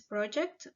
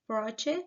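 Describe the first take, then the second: First: The final consonant cluster is pronounced. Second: The final consonant cluster is dropped. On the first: The speaker calls it right. "the correct form is project" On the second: The speaker calls it wrong. "Sebastian pronounced proche"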